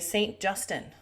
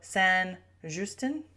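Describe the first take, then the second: First: The name is said with an American pronunciation. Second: The name is said with a French-style pronunciation.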